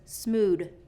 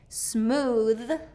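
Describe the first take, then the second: First: It ends with a d sound. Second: It ends with a th sound. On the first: The speaker calls it wrong. "versus smood" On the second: The speaker calls it right.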